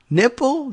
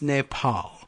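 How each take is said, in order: First: It is said like the word 'nipple'. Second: It is said with a final 'pahl' syllable. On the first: The speaker calls it wrong. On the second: The speaker calls it right. "it's Nepal"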